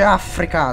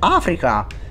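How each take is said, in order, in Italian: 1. La parola ha una pronuncia all'italiana. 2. La parola ha una pronuncia all'inglese. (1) "non si dice Africa" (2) "si dice Africa"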